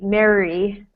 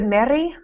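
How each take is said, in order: First: The R is American-style, tongue pulled back. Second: The R is not an American-style R. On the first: The speaker calls it right. "we need Mary ... your tongue is farther back in your mouth" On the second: The speaker calls it wrong. "instead of Mary"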